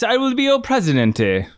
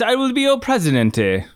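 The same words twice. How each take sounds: First: A mock Italian accent that sounds rather Venezuelan. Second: A mock Italian accent that sounds rather Venezuelan.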